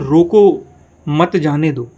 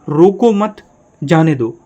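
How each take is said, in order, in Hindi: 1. विराम roko के ठीक बाद आता है। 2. विराम mat के ठीक बाद आता है। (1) "यानी किसी को रोकने की बात हो रही है।" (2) "अर्थ बदल गया, यानी आप उसको मत रोको जाने दो।"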